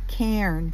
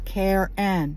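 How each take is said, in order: First: The word is said as one syllable. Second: The word is said as two syllables. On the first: "One syllable" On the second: "pronounced it as two syllables"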